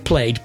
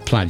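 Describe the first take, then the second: First: The vowel is 'ay', like played. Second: The vowel is a short 'a', like lad. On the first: The speaker calls it wrong. "Some people would say played, but that would definitely be wrong" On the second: The speaker calls it right. "So let's say plaid, shall we?"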